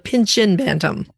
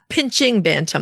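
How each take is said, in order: First: The first word ends with an 'in' sound. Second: The first word ends with an 'ing' sound. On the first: The speaker calls it right. "the Pinchin Bantam" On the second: The speaker calls it wrong. "Not pinching Bantam"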